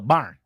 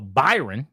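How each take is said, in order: First: The name is squeezed into one syllable. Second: The name is said with two syllables. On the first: The speaker calls it right. "You go Barn" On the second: The speaker calls it wrong. "You don't go Byron"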